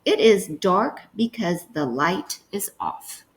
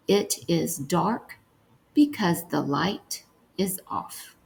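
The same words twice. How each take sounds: First: Said in the usual way. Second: Slow, softer dictation. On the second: Shown as a demonstration. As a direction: dictate it slowly and quietly. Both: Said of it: "The last one we're gonna write is".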